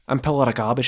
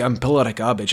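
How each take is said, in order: First: It is said in a Liverpool accent. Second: It is said in a throaty Scottish accent. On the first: "This this one's for the British listeners... I'm from Liverpool" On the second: "I'm from the the, the Highlands... the throatiness"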